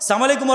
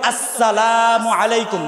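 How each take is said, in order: First: The greeting starts without the opening 'as' syllable. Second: The greeting starts with the full 'as' syllable. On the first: It wishes a curse on the listener. The speaker calls it wrong. "উইটা হাই সালাম আলাইকুম" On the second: It wishes peace on the listener. The speaker calls it right. "সালাম দিতে হবে আসসালামু আলাইকুম"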